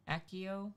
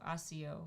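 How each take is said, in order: First: Accio said AK-ee-oh with a hard K; corrected pronunciation. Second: Asio with a plain S sound, AH-see-oh; wrong pronunciation. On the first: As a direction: Accio with a hard K, as an unsure question. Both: Shown as a demonstration. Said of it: "What do you say?".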